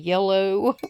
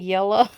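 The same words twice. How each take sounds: First: It is said with a standard, neutral pronunciation. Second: It is said with a regional West Virginia pronunciation. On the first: "instead of yellow" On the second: "the way I say yellow"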